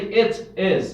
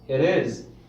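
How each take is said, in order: First: The words are said separately, not linked. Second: The words are linked smoothly together. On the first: The speaker calls it wrong. "You don't say it is better" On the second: The speaker calls it right. "But when you say it is, right?"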